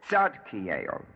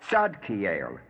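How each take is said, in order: The two takes are said the same way.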